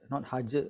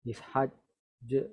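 First: The final j is cut off quickly. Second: The final j is held slowly and long. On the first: The speaker calls it wrong. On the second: The speaker calls it right.

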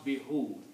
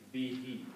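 First: The word ends with an 'oo' vowel. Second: The word ends with an 'ee' vowel. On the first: The speaker calls it wrong. "We don't pronounce be who. It doesn't come out easy on the tongue" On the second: The speaker calls it right. "We pronounce it like be he"

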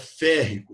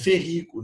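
First: The stress is on the first syllable. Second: The stress is on the second syllable. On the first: The speaker calls it right. "a palavra vira proparoxítona" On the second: The speaker calls it wrong. "não é ferrico"

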